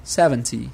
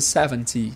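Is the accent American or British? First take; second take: British; British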